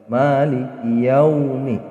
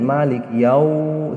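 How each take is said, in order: First: The syllable yau is kept short and soft. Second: The syllable yau is drawn out long. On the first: The speaker calls it right. "yaumi seperti itu membacanya" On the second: The speaker calls it wrong. "dipanjangin maliki yau tidak boleh"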